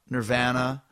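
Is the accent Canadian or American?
Canadian. It is said in a Canadian accent.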